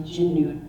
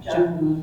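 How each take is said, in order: First: Jinnu, with an "ih" vowel and a double n; another dialect variant. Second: Jungu, said as "chanu" with a hard ch start; dialect variant. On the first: She lists the mountain goat word's variants, jinnu said carefully. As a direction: jinnu set against jungu as a second regional form. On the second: Tlingit learner shows a listener one dialect's jungu, said slowly. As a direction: jungu spoken carefully as one regional form. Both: Shown as a demonstration. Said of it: "so many variations to say jungu".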